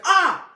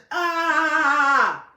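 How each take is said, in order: First: Short, sharp, very loud high yelp; demonstrated scream. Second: Long, loud, high "ah" held on one note; monotone yell. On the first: Showing what the brother didn't do, demonstrated short scream. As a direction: burst out in a quick startled scream. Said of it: "he didn't scream. It wasn't like". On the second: Showing how the brother said it, imitated monotone yell. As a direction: sustain an unwavering imitation yell. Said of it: "super monotone". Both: Shown as a demonstration.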